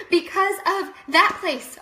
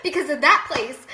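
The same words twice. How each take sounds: First: Slow, loud, with "that" drawn out; slow emphatic repeat. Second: "that place" said loud at normal pitch; emphatic answer. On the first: Blaming the old workplace for migraines, slow loud emphasis on "that". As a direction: spell it out slowly, stressing "that". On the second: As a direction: answer firmly, landing loudly on "that". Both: Real, not acted.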